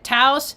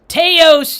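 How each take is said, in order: First: It is said the way locals say it. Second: It is said the nonlocal, countrified way. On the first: This is how the residents want it said. "they pronounce it Taos" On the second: The place feels small and backwater. "to me Teos sounds more podunk"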